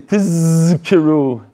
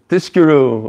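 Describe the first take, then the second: First: The second consonant is a z sound. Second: The second consonant is an sh sound. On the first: The speaker calls it right. "maybe he didn't say tizkiru" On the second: The speaker calls it wrong. "He said tishkiru"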